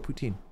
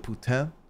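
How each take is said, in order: First: The word is said with English sounds. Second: The word is said with attempted French sounds. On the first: "Just go poutine" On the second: "even that didn't sound authentic"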